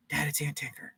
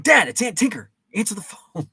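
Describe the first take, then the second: First: Whispered, half-hearted call to dad; soft, toneless retold call; hushed call. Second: Raised, louder mock shout to dad; high-pitched retold pestering; exasperated yell. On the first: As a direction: imitate a kid quietly passing on a message. Retelling calling dad to phone. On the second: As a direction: act out a kid hollering across the house. Retelling calling ignoring dad again.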